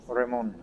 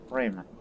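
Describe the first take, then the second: First: The name is pronounced the French way. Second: The name is pronounced the English way.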